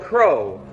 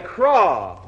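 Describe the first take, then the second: First: The word is said with an 'oh' vowel. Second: The word is said with an 'aw' vowel. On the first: This is the usual way to say it. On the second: This is how Scottish speakers say it.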